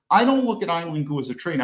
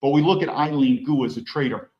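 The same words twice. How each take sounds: First: "don't" hit as the key word, a bit quick; contradicting with weight on "don't"; stress on DON'T. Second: Said in the usual way. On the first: Shown as a demonstration. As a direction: lean on "don't" to reject the label.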